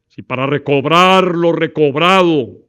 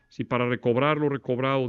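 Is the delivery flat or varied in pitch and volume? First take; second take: varied; flat. First: Pitch and volume rise and fall noticeably. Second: Pitch and volume stay level and monotone. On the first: The speaker calls it right. "puedo estar jugando con la elevación de la voz" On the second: The speaker calls it wrong. "Para que no sea una exposición plana"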